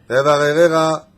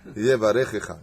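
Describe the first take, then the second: First: The third syllable begins with an r sound. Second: The third syllable begins with a guttural ch sound. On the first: The speaker calls it wrong. "il disait Yevarerecha, je sais pas ce qu'il racontait" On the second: The speaker calls it right.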